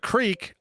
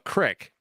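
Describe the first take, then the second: First: The vowel is a long 'ee' sound. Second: The vowel is a short 'i' sound. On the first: "people call the creek" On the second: "a crick, and I want to fucking stab somebody"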